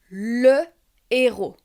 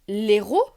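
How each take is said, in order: First: The full article is said, then a short pause. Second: The article's vowel is dropped and joined to héros. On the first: The speaker calls it right. "faire une pause entre le et le H aspiré" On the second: The speaker calls it wrong. "Je ne peux pas dire l'héros"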